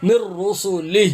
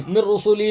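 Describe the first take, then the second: First: "مر رسلہ" slow, ending in a breathed h; final h sounded. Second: "مر رسلہ" as mir-rusulee, the final h missing; wrong ending. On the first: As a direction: finish "مر رسلہ" on an audible h, no bare vowel. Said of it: "ہا کی آواز آئے گی". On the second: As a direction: drop the h of "مر رسلہ", ending on a bare ee. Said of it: "حمزہ کی آواز نہیں آئے گی". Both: Shown as a demonstration.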